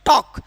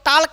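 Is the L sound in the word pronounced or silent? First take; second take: silent; pronounced. First: The L sound is silent in the word. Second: The L sound is pronounced in the word. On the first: The speaker calls it right. "यहाँ पर यल क्या है? Silent हो गया।" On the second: The speaker calls it wrong. "इसको टाल्क नहीं पढ़ेंगे"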